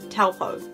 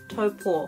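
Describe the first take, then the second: First: It is said with an English-style pronunciation. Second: It is said with a Māori pronunciation. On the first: This is how most people say it. The speaker calls it wrong. "Most people would say this" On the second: This is how it sounds in Māori. The speaker calls it right. "You hear the differences there?"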